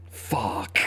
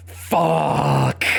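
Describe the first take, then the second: First: Whispered curse. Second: Loud curse. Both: Real, not acted. Dismayed at bad draw.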